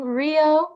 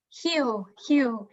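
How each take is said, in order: First: Said in the usual way. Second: Rio said the Brazilian way, R as a breathed H; Rio de Janeiro accent. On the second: Shown as a demonstration. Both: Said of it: "pronounced in a Rio de Janeiro accent".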